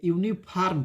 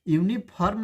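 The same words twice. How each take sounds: First: यूनिफॉर्म with a yu-vni start; proper यूनिफॉर्म with a clear y glide; correct pronunciation. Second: यूनिफॉर्म as u-ni-pharm without the yu; erroneous यूनिफॉर्म with a dropped y sound; wrong pronunciation. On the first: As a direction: model the right यूनिफॉर्म beginning with yu. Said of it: "इसको यूनिफॉर्म नहीं पढ़ेंगे". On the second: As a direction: show the mistake, यूनिफॉर्म said with a plain u. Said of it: "यूनिफॉर्म पढ़ेंगे तो गलत हो जाएगा". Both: Shown as a demonstration.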